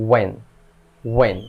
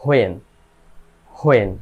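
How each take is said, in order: First: ওয়েন said "wen", no h; correct pronunciation. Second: হোয়েন said "ho-en" with a sounded h; habitual mispronunciation. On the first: Teacher models it for learners, h-less ওয়েন. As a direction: begin ওয়েন on a clean w, one short syllable. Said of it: "এর সঠিক উচ্চারণ হবে". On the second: Teacher shows how learners say it, h-initial হোয়েন. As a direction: put an h-plus-o glide before "en" in হোয়েন. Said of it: "কি উচ্চারণ করি". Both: Shown as a demonstration.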